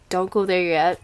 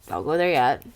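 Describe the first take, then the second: No difference in how they are said.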